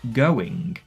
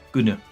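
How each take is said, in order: First: The word is said in its full form. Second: The word is said in a shortened form. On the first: "I don't say going" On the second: "I say gonna"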